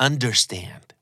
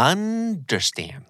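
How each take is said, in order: First: Said in the usual way. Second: Understand with UN high and drawn out; stretched high UN, then falling through derstand; exaggerated syllable demo. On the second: Shown as a demonstration. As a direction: model Understand slowly, holding a raised first syllable. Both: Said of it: "พยางค์ที่ถูกเน้นเสียง".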